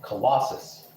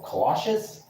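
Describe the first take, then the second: First: Said in the usual way. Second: Colossus said with a SH in the middle, "kuh-LOSH-us"; questioning "Colossus", middle S turned into SH; alternative pronunciation. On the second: Shown as a demonstration. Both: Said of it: "They pronounce it weirdly in this game".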